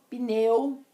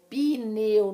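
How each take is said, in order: First: The p joins the n with no extra vowel. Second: An extra i vowel is heard after the p. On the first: This follows the formal pronunciation rules. The speaker calls it right. "a pronúncia de acordo com as regras da ortoépia" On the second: This is informal everyday speech. The speaker calls it wrong. "não existe esse I do pneu"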